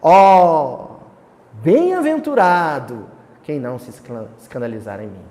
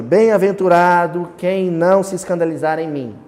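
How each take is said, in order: First: Loud declaimed exclamation on "Ó", then falling away. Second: Said in the usual way. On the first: Shown as a demonstration. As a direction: proclaim it like poetry. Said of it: "é uma exclamação". (exclamação declamada, com "Ó" forte) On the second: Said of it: "Não, é uma exclamação".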